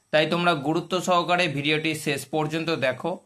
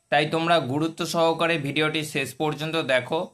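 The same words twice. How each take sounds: Both takes have the same delivery.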